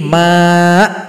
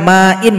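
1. Kata ini berakhir mendadak tanpa vokal akhir. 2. Kata ini berakhir dengan bunyi vokal dan n. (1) "menjadi ma'" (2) "Misalkan ma'in"

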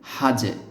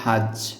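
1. শেষের ব্যঞ্জনটি একটি ছোট প্রতিধ্বনিত ঝাঁকুনি দিয়ে শেষ হয়। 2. শেষের ব্যঞ্জনটি প্রতিধ্বনি ছাড়া সোজাসুজি থেমে যায়। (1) "এই হা এই জিমটাকে ধরার পাশাপাশি কলকলাও করতে হবে" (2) "যদি আমরা এভাবে বলতাম হা জিম জবর হাজ"

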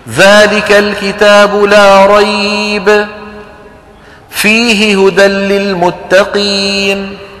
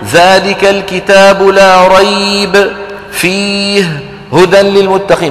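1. توجد وقفة واحدة داخل الآية. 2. توجد وقفة قبل كلمة واحدة وبعدها. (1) "معنى جميل وما فيني رده" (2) "ما بصير هذه فيه وقف قبلها وقف بعدها"

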